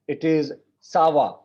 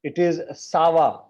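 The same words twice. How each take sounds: First: Teacher models it again, "sawa" crisp and careful; sawa, correct form. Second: Teacher corrects the student, "sawa" said clearly; sawa, correct form. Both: Shown as a demonstration. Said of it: "Because of that accent".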